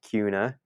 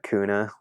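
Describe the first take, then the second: First: The first syllable differs from 'ku' in Hakuna. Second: The first syllable sounds like 'ku' in Hakuna. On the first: The locals' name for the town. The speaker calls it right. "you need to pronounce it Kuna" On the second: An outsider's reading of the name. The speaker calls it wrong. "like Hakuna Matata"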